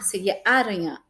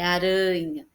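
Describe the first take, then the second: First: The stress is on the first syllable. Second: The stress is on the middle syllable. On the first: The speaker calls it wrong. "se fosse o A, seria aranha" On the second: The speaker calls it right. "o som mais forte é o rã"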